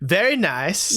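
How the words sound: It is said in a Borat accent.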